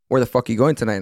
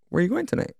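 First: It is asked in an aggressive, angry tone. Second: It is asked in a gentle, casual tone.

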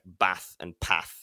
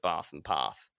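First: It is said in a northern English accent. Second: It is said in a southern English accent. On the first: "the northern things like bath and path" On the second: "instead of bath and path"

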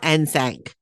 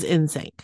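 First: The name begins with a different vowel sound. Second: The name begins with an 'in' sound. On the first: The speaker calls it wrong. "It's not NSYNC" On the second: The speaker calls it right. "It is NSYNC. ... It's in sync and that's the way it is"

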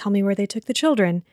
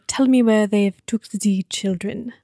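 First: It is said in his ordinary voice. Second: It is said in a German accent.

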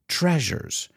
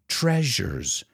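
First: The middle consonant is a zh sound. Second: The middle consonant is a zh sound.

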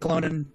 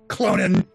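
First: It is said in a plain, neutral way. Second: It is said in a sharp, acerbic way.

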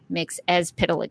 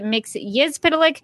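First: The second syllable starts with a vowel. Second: The second syllable starts with a g sound. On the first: This is how the show says it. "the show says" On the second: This is the official pronunciation. "it sounds like the official name is"

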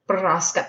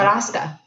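First: It is said with a rolled Spanish R. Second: It is said with a French-style accent. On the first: "Say it with the rolling R. That's not French. that's Spanish" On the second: "Say it with a French accent"

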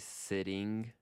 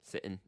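First: The middle consonant is a clear t sound. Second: The middle consonant is a glottal stop. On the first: "some people say sitting, and that's fine" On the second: "So that's a glottal stop"

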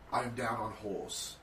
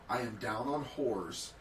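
First: It is read in a broad London accent. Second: It is read in the speaker's ordinary voice.

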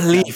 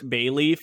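First: The first syllable is a short, weak 'buh' sound. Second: The first syllable is a full 'bay' sound. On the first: The speaker calls it right. "I'm like, it's belief" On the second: The speaker calls it wrong. "Charlie usually pronounces it bay like leaf"

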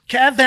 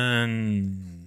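First: The name is said with loud enthusiasm. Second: The name is said flatly, without enthusiasm.

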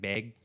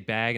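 First: Said imitating a northeastern regional accent. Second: Said in the speaker's own everyday accent. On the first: "northeast, like, ... and they might say" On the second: "you know how we say bag"

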